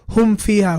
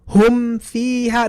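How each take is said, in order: First: The meem jumps too quickly into the fa. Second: The meem is released clearly before the fa. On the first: The speaker calls it wrong. "Don't say ... don't like jump to the fa too quickly" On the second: The speaker calls it right. "you have to make the meem clear and the fa clear"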